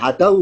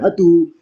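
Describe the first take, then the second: First: An 'a' vowel follows the d sound. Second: A 'u' vowel follows the d sound. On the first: The speaker calls it right. "Dalnya tetap fathah" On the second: The speaker calls it wrong. "bukan hadu"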